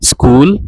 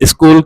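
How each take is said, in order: First: No extra vowel is added anywhere. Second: An extra vowel is added before the s. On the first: The speaker calls it right. "हिन sound में कोई बि अलिफ न हूंदो आहे" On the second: The speaker calls it wrong. "अलिफ अॻियां ॾेई करे स्कूल करे प्रोनाउंस कंदा आहियूं जेका हिकु मिस्टेक आहे"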